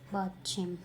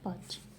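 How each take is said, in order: First: It is said in a Korean-style pronunciation. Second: It is said in an Indian-style pronunciation. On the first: "Koreans जो इसे बोलते हैं वो है" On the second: "हम इंडियंस हम इसे इस तरीके से प्रोनाउंस करते हैं"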